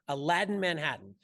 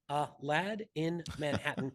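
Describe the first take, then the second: First: The phrase is said quickly, words run together. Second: The phrase is said slowly, words kept apart.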